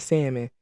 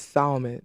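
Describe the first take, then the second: First: "salmon" with a silent L, SAM-in. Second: "salmon" with the L sounded, SAL-mon. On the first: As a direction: drop the L from "salmon". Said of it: "people be getting me with that, with that word". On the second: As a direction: pronounce the L in "salmon". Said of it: "It depends on how you say it". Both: Shown as a demonstration.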